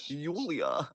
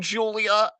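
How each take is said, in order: First: The name is said with German pronunciation. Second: The name is said with English pronunciation.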